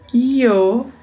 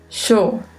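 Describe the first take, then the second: First: The word begins with a y sound. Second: The word begins with a sh sound. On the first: "um som de I" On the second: "um leve som de X"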